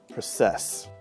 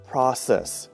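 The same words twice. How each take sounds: First: The stress is on the second syllable. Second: The stress is on the first syllable. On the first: The speaker calls it wrong. "not process" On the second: The speaker calls it right. "the syllable stress should be on the first syllable"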